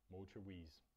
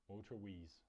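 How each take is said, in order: The two takes are said the same way.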